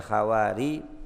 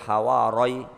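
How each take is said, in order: First: The r is followed by an i vowel. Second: The r is followed by an a vowel. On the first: "boleh dikasrokan" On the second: "kalau dibaca fathah"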